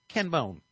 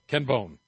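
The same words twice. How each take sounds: First: The name is said in a timid, weak way. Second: The name is said in a bold, macho way. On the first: The man sounds harmless and unimposing. "But he was more like" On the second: The man sounds strong and dominant. "that's alpha"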